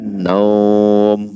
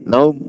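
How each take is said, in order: First: The vowel is drawn out long. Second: The vowel is kept short. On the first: It follows the rules of Quranic recitation. "Kalau nak ikut kaedah tajwid, dia dipanjangkan" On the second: It does not follow the rules of Quranic recitation. "Kalau tak nak ikut kaedah tajwid"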